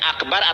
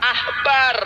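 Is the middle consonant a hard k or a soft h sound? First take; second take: hard k; soft h. First: The middle consonant is a hard k sound. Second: The middle consonant is a soft h sound. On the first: The speaker calls it wrong. "bacanya bukan akbar" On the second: The speaker calls it right.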